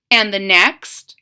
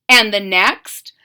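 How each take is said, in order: Both takes have the same delivery.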